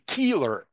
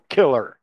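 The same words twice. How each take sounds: First: The first vowel is long. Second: The first vowel is short. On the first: A family name. "а у нее он долгий" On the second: The common word for a murderer. "там-то короткий гласный звук"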